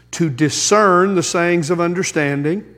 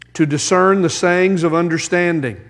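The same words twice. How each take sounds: Both takes have the same delivery.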